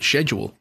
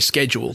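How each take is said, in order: First: The word is said with an English pronunciation. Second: The word is said with an American pronunciation. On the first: "like the English" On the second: "like Americans"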